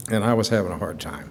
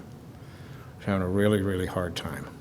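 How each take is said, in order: First: Said in the usual way. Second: Really stressed, the whole phrase dropping much softer; real hurt pulling the voice down to almost nothing; choked-up quiet. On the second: Real, not acted. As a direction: let the really sink as the voice gives out. Repeats the line, then breaks down.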